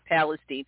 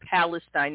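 First: The name is said the local town way. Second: The name is said the usual standard way. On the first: This is how the town's residents say it. The speaker calls it wrong. "not Palestine, but that's how they pronounce it" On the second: This is the expected pronunciation of the word. The speaker calls it right. "the people in Ohio would know it's Palestine"

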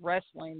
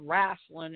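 First: The word is said with a standard pronunciation. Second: The word is said with a Southern pronunciation. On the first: "instead of wrestling" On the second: "I like it when people say wrestling"

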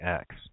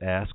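First: The word ends with the k before the s. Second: The word ends with the s before the k. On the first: The speaker calls it wrong. "my New York accent, saying axe" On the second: The speaker calls it right. "I said ask"

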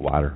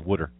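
First: It is said in a standard accent. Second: It is said in a Lower Delaware accent.

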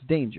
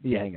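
First: The name is pronounced like English 'danger'. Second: The name is pronounced the German way. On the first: "But it's Danger" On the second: "Some Germans pronounce it Danger"

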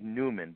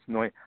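First: The name begins with a 'new' sound. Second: The name begins with a 'noy' sound. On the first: The speaker calls it wrong. "It looks like Newman" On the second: The speaker calls it right. "but it's Neumann"

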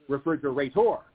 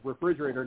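First: The stress falls on an unusual syllable. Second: The stress falls on the usual second syllable. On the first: This is a distorted reading forced by the rhyme. The speaker calls it wrong. "not refrigerator" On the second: This is how the word fits the rhythm in Seuss. The speaker calls it right. "it's going to scan as refrigerator"

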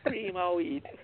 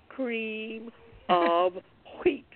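First: The words run together, with of blurred. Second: Each word is clear, with a breathy wh sound. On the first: The speaker calls it wrong. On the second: The speaker calls it right. "you made sure you heard the proper pronunciation"

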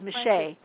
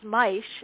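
First: The surname is pronounced the French way. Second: The surname is pronounced the German way. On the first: "and the French is Miché" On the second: "The German pronunciation of my name is Maisch"

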